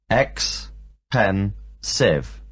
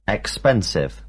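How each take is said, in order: First: Ex-pen-sive split into three slow beats; teacher spelling out ex-pen-sive slowly, one syllable at a time. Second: Said in the usual way. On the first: Shown as a demonstration. Teacher to class, slowly splitting ex-pen-sive into syllables. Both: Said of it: "There are three syllables in the word".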